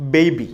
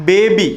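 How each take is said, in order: First: ബേബി with a gliding "ey" vowel; correct pronunciation. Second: ബേബി with a plain long "ay", louder; common pronunciation. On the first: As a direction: say ബേബി as "bey-bee". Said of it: "കൃത്യമായ pronunciation". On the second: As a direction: say ബേബി as "beh-bee", flat vowel. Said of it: "നമ്മൾ ഉച്ചരിക്കുന്നത് ഇങ്ങനെയാണ്". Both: Shown as a demonstration.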